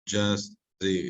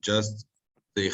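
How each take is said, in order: Both takes have the same delivery.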